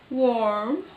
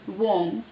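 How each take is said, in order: First: It is said in an American accent. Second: It is said in a British accent.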